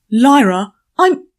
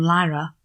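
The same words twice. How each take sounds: First: Sudden loud angry shout. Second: Said in the usual way. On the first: A narrator's reading. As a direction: snap her name out loud. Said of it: "look at the shout". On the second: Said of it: "plain narration of the name".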